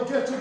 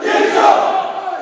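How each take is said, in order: First: Said in the usual way. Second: Full-voice chant yell. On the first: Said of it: "I want you to yell". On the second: Real, not acted. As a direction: scream it at the top of your lungs. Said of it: "to the highest of your voice can take".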